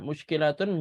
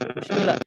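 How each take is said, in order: First: The word ends with a full tun sound. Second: The word ends with an h sound.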